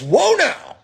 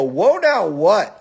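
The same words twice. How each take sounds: First: High-pitched mock "whoa" yell; retold shout, pitched way up; imitated protest yell. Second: Slow, drawn-out retort, pitched up; re-enacted confrontational comeback; retold challenge. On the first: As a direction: imitate an alarmed man calling out. Imitates dog owner's protest. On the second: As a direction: throw it back as a challenge. Retells own challenge back.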